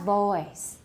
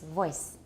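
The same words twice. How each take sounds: First: The vowel is drawn out long. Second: The vowel is kept very short. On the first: The speaker calls it wrong. "Not voice" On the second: The speaker calls it right. "make the O really short"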